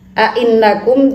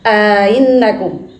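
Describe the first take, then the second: First: The two glottal stops come with no vowel between them. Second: A two-beat long vowel separates the two glottal stops.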